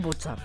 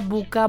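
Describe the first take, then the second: First: The middle consonant is a ts sound. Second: The middle consonant is a hard k sound. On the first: The speaker calls it right. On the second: The speaker calls it wrong.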